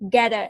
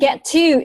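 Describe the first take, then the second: First: The t sounds merge into a soft d. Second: Both t sounds are clearly pronounced. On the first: "speak English with American accent, answer gather" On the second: "you can pronounce that get to. It's okay"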